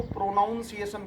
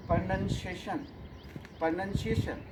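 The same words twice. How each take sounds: First: "pronunciation" with "noun" in it; mispronounced "pronunciation". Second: "pronunciation" with "nun" in the second syllable; correct "pronunciation". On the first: Retold or imitated. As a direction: imitate the common error, "pro-NOUN-ciation". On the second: Shown as a demonstration. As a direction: model "pronunciation" slowly, saying "nun", not "noun". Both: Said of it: "लोग इसको प्रोनाउंसिएशन बोलते हैं".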